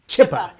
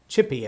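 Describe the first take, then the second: First: The name ends with an 'uh' sound. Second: The name ends with an 'ee' sound. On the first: The speaker calls it right. "Like you eat a chip and then ah" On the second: The speaker calls it wrong. "Did I say it right this time?"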